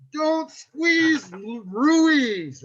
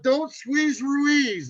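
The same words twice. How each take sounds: First: "squeeze" stressed, then "Ruiz" louder; host retries, hitting "Ruiz" harder; punchier intro. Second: Slow, stretched "don't squeeze Ruiz"; host drawls "don't squeeze Ruiz" slowly; drawn-out intro. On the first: Host's second take of intro, "Ruiz" punched louder. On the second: Host rehearsing intro, "don't squeeze Ruiz" slow and drawn out. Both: Shown as a demonstration. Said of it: "I'll do it one more time".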